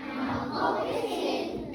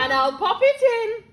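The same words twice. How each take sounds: First: Slow whisper; whispered echo. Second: Much louder, higher cheeky promise. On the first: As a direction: breathe the line back in a whisper. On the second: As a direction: announce it with glee. George cheeky, loud. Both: Acted.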